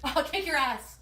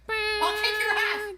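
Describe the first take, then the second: First: Said in the usual way. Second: High, slow, slurred threat; belligerent drunk. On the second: Acted. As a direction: drawl it like a sloppy drunk. Repeated clip line.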